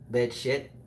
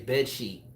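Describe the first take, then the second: First: The second word has a short 'i' vowel. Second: The second word has a long 'ee' vowel. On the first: The speaker calls it wrong. "she would say bed shit" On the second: The speaker calls it right. "she's trying to say bed sheet"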